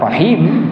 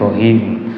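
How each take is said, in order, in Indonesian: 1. Huruf r-nya tipis dengan vokal a terbuka. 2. Huruf r-nya tebal dengan vokal o membulat. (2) "jadi rohim"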